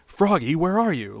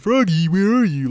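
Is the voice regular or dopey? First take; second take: regular; dopey. First: It is said in a regular, solid voice. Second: It is said in a dopey, slow voice.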